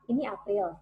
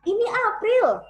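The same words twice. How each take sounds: First: It is said with the least vocal power. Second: It is said with the most vocal power. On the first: "Kita mulai dari power yang paling rendah" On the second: "sampai yang uh, maksimal yang kita bisa"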